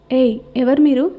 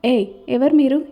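First: Angry. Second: Irritated. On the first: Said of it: "అంది సరళని చూస్తూ కోపంగా". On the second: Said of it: "చిరాకుగా చూస్తూ". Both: Acted.

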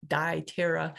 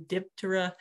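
First: "Diptera" as die-TERR-uh; long-i Diptera. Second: "Diptera" as DIP-tuh-ruh; short-i Diptera. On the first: Presenter offering another way to say the order, "Diptera" with long i. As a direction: say "Diptera" opening like the word die. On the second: Presenter giving viewers the fly order's name, "Diptera" with short i. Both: Shown as a demonstration. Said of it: "uh, or Diptera".

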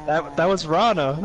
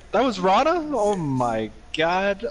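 First: Said in the usual way. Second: High question, then a slow, drawn-out exclamation; retold disbelief. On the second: Retelling learning it was the friend's wife yelling, incredulous. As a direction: act out stunned disbelief, stretching the exclamation.

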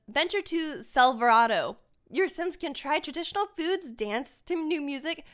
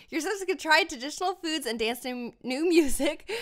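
First: Flat robotic reading. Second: Said in the usual way. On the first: Real, not acted. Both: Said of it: "did I just read that like a robot?".

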